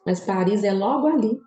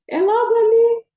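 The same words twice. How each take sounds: First: Said in the usual way. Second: "É logo ali" much higher and louder, thrilled; excited exclamation. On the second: Real, not acted. Telling followers her Paris dream is near, excited exclaim. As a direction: shout "logo ali" with high, bursting excitement. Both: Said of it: "Eu quero ir pra Paris".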